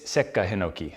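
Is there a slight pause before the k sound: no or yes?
yes. A slight pause comes before the k. The speaker calls it right. "it's Sekka Hinoki. So there's a slight pause there"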